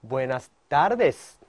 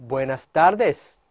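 Both takes have the same delivery.

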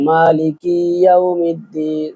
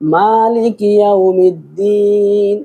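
First: The vowel after k is drawn out long. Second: The vowel after k is kept short. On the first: The speaker calls it wrong. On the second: The speaker calls it right.

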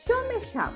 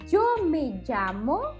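First: The y and ll sound like English sh. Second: The y and ll sound like English j. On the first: "Ou pode ser como uma SH, SH" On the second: "Vocês podem falar como uma jota, jota de jeans"

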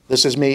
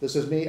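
First: The voice sounds clear, full and close. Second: The voice sounds faint, distant and weakened. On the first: The speaker stands inside the microphone's pickup area. "This is me inside the coverage of the microphone" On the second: The speaker stands outside the microphone's pickup area. "This is me outside the coverage of the microphone"

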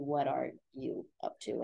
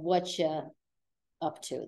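First: Each word is said separately and in full. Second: The first words blur together into one reduced word. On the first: "That should be what are you up to?" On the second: "it's just whatcha most of the time"

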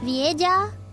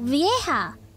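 First: A hard G sound is heard in the word. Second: No hard G sound is heard in the word. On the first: The speaker calls it wrong. "Oh no" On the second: The speaker calls it right. "the G is silent"

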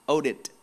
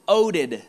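First: The middle consonant is a T sound. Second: The middle consonant is a D sound.

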